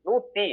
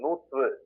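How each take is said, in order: First: It ends in a plain 'tthi' sound. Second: It ends in a 'tru' sound. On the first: The speaker calls it wrong. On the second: The speaker calls it right.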